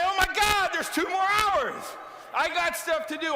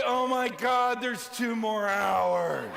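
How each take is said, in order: First: Thrilled there's time left to get things done; eager excitement. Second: Sag at the thought of more work; weary groan. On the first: Speaker showing employees the upbeat answer, eager and excited. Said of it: "Why don't you say". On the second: Speaker mocking a worn-out employee, weary and drawn out. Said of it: "what is your attitude at the end of the day". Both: Shown as a demonstration.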